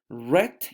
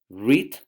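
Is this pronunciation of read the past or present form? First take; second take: past; present. First: It is pronounced as the past-tense form. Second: It is pronounced as the present-tense form. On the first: The action happened before. "read in past" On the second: The action happens now or habitually. "Read present"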